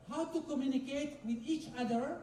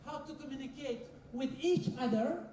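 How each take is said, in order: Both takes have the same delivery.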